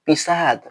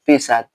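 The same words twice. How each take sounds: First: The stress is on the second syllable. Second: The stress is on the first syllable. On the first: It means to write. "with the stress on the second syllable means to write" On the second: It means to urinate. "with the stress on the first syllable. Pisat means to urinate"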